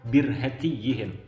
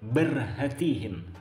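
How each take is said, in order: First: The first vowel is 'i'; 'y' is doubled. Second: The first vowel is not 'i'; 'y' is single. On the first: The speaker calls it right. "huruf ba dikasrahkan dan huruf ya-nya bertasydid" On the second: The speaker calls it wrong. "Banyak orang membaca dengan berhatihin seperti itu"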